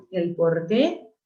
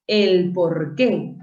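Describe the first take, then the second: First: Slow El porqué, final "qué" stressed. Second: Slow El porqué, stress on final "qué". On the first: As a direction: lean on the end of El porqué. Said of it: "por ser palabra aguda". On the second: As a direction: stretch out El porqué, landing on "qué". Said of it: "no confundamos la palabra porque". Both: Shown as a demonstration.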